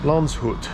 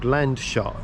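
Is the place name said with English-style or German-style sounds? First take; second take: German-style; English-style. First: The name is said with German-style sounds. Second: The name is said with English-style sounds. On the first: The speaker calls it right. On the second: The speaker calls it wrong.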